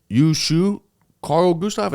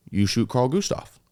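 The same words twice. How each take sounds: First: "You shoot Carl Gustav?" asked outright, pitched higher with a rise on "shoot"; full question. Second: "You shoot Carl Gustav." said flat like a statement with only a slight rise on "Carl"; not quite asking, "You shoot Carl Gustav." mostly stated; half question, half statement. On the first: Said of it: "now it's a full question". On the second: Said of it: "kinda like a question, but also a statement". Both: Retold or imitated.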